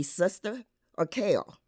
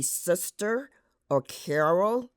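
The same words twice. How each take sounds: First: Sister as sista, Carol as Ca'ol; R dropped. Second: Sister and Carol with full r; R pronounced. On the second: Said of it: "In mainstream American English". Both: Shown as a demonstration.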